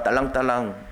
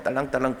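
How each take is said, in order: First: Mocking 딸랑딸랑 as a toady's bell-ringing; fawning. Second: 딸랑딸랑 softer, trailing off; a quieter toady's 딸랑딸랑; softer fawning. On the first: Preacher mocking the crowd's flattery, fawning. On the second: Retold or imitated. Preacher ending the crowd's flattery, softer fawning. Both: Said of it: "빌라도에게 아부하는 말이야".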